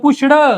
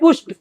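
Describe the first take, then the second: First: The ending is pronounced with a d sound. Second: The ending is pronounced with a t sound. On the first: "तुमच्या भाषेतलं पुष्ड" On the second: "पण खरं काय आहे पुष्ट. असा ट असा उच्चार करायचा"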